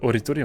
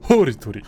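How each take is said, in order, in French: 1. Le nom commence directement par la voyelle. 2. Le nom commence par un son h audible. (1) "on dit pas Oritori" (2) "Il y a un H d'ailleurs, on dit Oritori"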